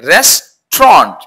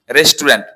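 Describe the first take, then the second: First: রেস্টুরেন্ট in two slow beats, "RES-tront"; correct pronunciation. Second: রেস্টুরেন্ট in three syllables, "res-tu-RENT"; common mispronunciation. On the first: Teacher models the new way for students, corrected pronunciation. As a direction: merge the end of রেস্টুরেন্ট into a long "tront". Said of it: "আমরা আজকে থেকে বলবো". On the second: Teacher quotes what everyone says, mispronounced. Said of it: "not রেস্টুরেন্ট". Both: Shown as a demonstration.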